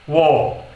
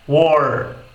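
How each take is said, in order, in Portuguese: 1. O r no final não é pronunciado. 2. O r no final é pronunciado, retroflexo. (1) "Já no inglês britânico soaria como war" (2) "A gente pode dizer no inglês americano war"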